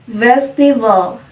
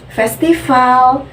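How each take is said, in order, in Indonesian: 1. V di tengah kata "festival" itu bersuara dengan kuat. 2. V di tengah kata "festival" terdengar seperti F yang tak bersuara. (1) "pelafalannya itu digetarkan secara kuat" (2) "melafalkan huruf V itu dengan seperti layaknya F"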